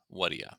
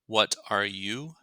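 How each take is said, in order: First: The words run together with a weak final vowel. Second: Each word is said fully and separately. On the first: "will often be produced as what are ya" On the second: "the question form"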